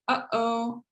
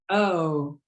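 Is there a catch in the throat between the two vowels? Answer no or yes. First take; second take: yes; no. First: The air stops briefly in the throat mid-word. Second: The vowels run together with no throat stop. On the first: "anytime you say uh-oh, you're doing a glottal stop" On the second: "without the glottal stop, it would sound like oh"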